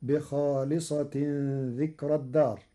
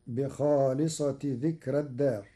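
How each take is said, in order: First: Said in the usual way. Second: بخالصة without nunation, in construct with ذكر; no tanwin. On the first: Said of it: "فتصير". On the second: Shown as a demonstration. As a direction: drop the tanwin of بخالصة straight into ذكرى. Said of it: "بدون تنوين". (بخالصةِ بدون تنوين مضافة)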